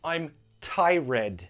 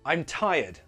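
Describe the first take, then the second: First: The R in tired is clearly pronounced. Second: The R in tired sounds more like Y. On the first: The speaker calls it wrong. "A very common mistake I hear is" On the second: The speaker calls it right. "Don't pronounce the R. It's more like a Y"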